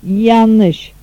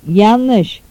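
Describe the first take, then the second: Both takes have the same delivery.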